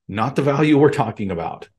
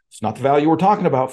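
First: Said in the usual way. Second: Rushed out, pressing the point; quick, pressing. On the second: Shown as a demonstration. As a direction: fire it off fast to correct them.

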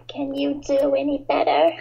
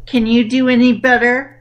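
First: 1 imitation. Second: 1 odd voice. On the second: Acted. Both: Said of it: "What was that voice?".

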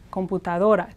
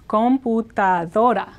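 First: Said in the usual way. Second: Computadora drawn out syllable by syllable, do like English though; slow Spanish demonstration. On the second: Shown as a demonstration. Teacher demonstrating the word for computer, slow syllable-by-syllable computadora. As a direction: sound out computadora slowly, stressed on DOR. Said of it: "This syllable is like the English word though".

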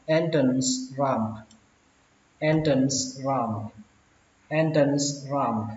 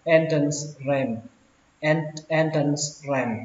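First: "entrance ramp" with open a in "ramp", like "ram"; first way of RAMP. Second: "entrance ramp" with e in "ramp", like "rem"; second way of RAMP. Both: Shown as a demonstration. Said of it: "Cách thứ hai các bạn đọc là".

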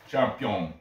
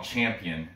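First: "Champion" with an open ah and a yon ending; foreign-style pronunciation. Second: Said in the usual way. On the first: Shown as a demonstration. Trying a tough name to pronounce, foreign-sounding "Champion". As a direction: say "Champion" as shahm-PYOHN. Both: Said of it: "got a tough name to pronounce".

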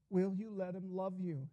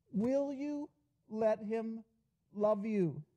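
First: Said in the usual way. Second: Much higher and louder, pleading question; preaching appeal. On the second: Acted. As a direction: call it out to the congregation.

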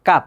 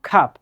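First: 'cup' with no puff after k; unaspirated k. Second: 'cup' with a puff of air after k; aspirated k. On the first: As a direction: hold back the air on 'cup'. ('cup' অল্পপ্রাণ ক দিয়ে) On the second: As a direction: breathe out on the k of 'cup'. ('cup' মহাপ্রাণ খ দিয়ে) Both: Shown as a demonstration. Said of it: "not cup".

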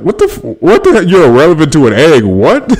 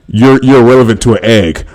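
First: High-pitched, incredulous reaction; laughing, thrown-off questioning; baffled disbelief. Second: Said in the usual way. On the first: Retold or imitated. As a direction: repeat it back in amused bewilderment. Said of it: "I was like". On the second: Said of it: "how this dude just said".

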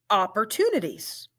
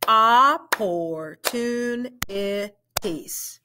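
First: "Opportunities" said fast as one smooth word; quick, blended "Opportunities". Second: Each syllable of "Opportunities" said apart, slowly; slow, split into syllables. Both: Shown as a demonstration. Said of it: "We're gonna blend it".

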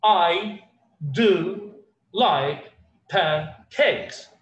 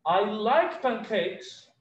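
First: "do" loud and drawn out, every word separated; one word at a time, very slow, hitting "do" hard; emphatic DO. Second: "like" stretched and stressed in "I like pancakes"; slowly insist, leaning on "like"; plain insistence. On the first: Teacher telling a doubting student one last time, emphatic. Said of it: "when you want to emphasize". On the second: Teacher answering a doubting student, mildly insistent. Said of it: "I told you". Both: Acted.

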